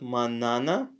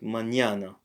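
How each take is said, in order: First: The middle consonant is a plain n sound. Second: The middle consonant is a palatal ny sound. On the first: The speaker calls it wrong. "it's not manana" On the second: The speaker calls it right. "but mañana. ... palatalized"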